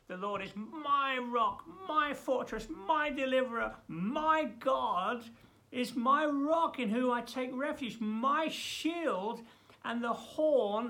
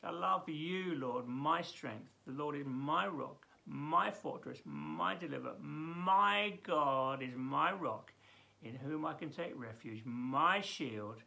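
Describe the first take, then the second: First: High, loud, proclaimed psalm; ringing declamation; loud first reading. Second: Softer, slower second reading; tender rereading of the psalm; quieter reread. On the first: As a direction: cry the verses out with full force. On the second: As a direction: read it again gently, savouring it. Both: Shown as a demonstration. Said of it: "I've gotta read that again".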